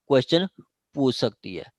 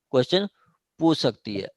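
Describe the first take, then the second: No difference in how they are said.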